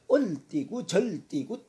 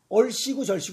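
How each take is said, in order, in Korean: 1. 가운데 자음은 d로 발음됩니다. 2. 가운데 자음은 분명한 s 소리입니다. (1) "시옷이 디귿으로 발음이 날 때" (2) "얼씨고 절씨고 해야 되는데"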